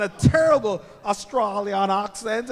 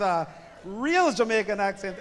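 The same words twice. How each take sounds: First: Slow, loud, badly faked Australian accent; mock Australian accent, higher and drawn out; terrible Australian accent. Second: Loud Jamaican accent, played up for the crowd; playful, emphatic Jamaican accent. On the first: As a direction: ham up an awful Australian accent. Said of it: "I sound like Anna Delvey". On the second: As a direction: say it with a proud Jamaican lilt. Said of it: "with a real Jamaican accent".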